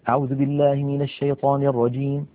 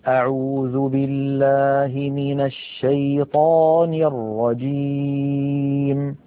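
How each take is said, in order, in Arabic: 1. تُقرأ بسرعة ونشاط. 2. تُقرأ ببطء وهدوء. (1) "حدر فلان بمعنى أسرع" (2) "بطء وتؤدة"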